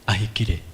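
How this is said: The name is said with an English accent. "the normal English version is"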